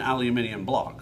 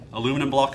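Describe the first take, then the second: First: The word is said the speaker's own way. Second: The word is said the listeners' way. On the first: This is how the speaker calls it. The speaker calls it right. "what I would call an aluminium block. That's the right way to say it" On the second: This is how the listeners call it. The speaker calls it wrong. "You guys use the uh, aluminum block"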